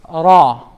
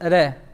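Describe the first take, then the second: First: The r is said heavy, with a full mouth. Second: The r is said light, with a thin mouth. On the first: The speaker calls it right. "This is pronounced with a full mouth" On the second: The speaker calls it wrong. "instead of"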